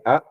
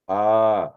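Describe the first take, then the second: First: The vowel is held for a short time. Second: The vowel is held for a long time. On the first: "one matra" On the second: "pronounce the same A for two matra"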